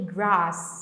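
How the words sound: It has an open, broad British vowel. "ele fala inglês britânico, então ele fala uma coisa meio que grass, sabe assim, meio que aberto assim"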